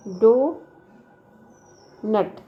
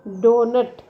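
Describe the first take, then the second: First: donut very slow, long gap between डो and नट; syllables far apart. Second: Said in the usual way. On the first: Shown as a demonstration. Teacher showing syllables in the examples, donut broken in two. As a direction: stretch डो, pause, then नट. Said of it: "the underlined syllables". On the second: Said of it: "In all these examples".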